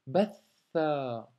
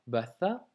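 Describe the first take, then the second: First: Batha slow, tha held double; doubled tha. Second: Batha with a single short tha, the wrong way. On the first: Teacher showing the right reading of batha, slow. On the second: Teacher showing the wrong reading of batha. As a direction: read batha with the tha not doubled. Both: Shown as a demonstration. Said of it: "on doit doubler la lettre tha".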